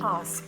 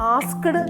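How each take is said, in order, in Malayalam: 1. k ശബ്ദം ഉച്ചരിക്കുന്നില്ല. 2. വ്യക്തമായ k ശബ്ദം ഉച്ചരിക്കുന്നു. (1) "ഇതൊരു കെ സൗണ്ട് സൈലന്റ് ആണ്" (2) "ആസ്ക്ഡ് അല്ല"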